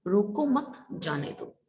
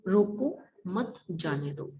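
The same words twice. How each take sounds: First: रोको मत joined, then a break before जाने दो; pause after मत. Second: रोको set apart as a command, then मत जाने दो; pause after रोको. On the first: Teacher showing pupils the other meaning, pause after मत. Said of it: "मतलब मुझे रोको मत जाने दो". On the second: Teacher showing pupils how a comma changes meaning, pause after रोको. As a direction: break right after रोको, then run मत जाने दो together. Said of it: "मतलब उसे रोको मत जाने दो". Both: Shown as a demonstration.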